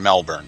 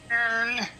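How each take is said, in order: First: It is said in an ordinary voice. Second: It is said in an odd, put-on voice.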